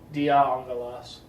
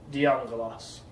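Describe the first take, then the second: First: Both words are said fully and separately. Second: The final vowel drops; the words run together. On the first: "saying both of those things" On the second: "just kind of run the words together"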